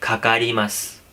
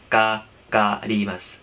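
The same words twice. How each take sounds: First: खकारीमास with a heavy aspirated kha, said slowly. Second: काकारीमास with a plain unaspirated ka; light ka. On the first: Teacher showing students the spoken heavy kh version. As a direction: breathe out hard on the first sound of खकारीमास. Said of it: "लेकिन heavy बोलते हैं". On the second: Teacher showing students the written form, light k sound. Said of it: "hiragana अगर आप पढ़ेंगे". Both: Shown as a demonstration.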